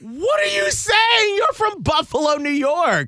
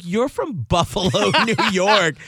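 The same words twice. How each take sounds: First: Exasperated disbelief. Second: Higher, laughing retort; amused disbelief. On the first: Retelling a rebuke to boyfriend's Southern accent, exasperated shout. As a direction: shriek it in mock exasperation. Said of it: "And I'm like". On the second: Retelling a rebuke to boyfriend's Southern accent, amused disbelief. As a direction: call out the fake accent through a laugh. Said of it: "and I'm like". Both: Retold or imitated.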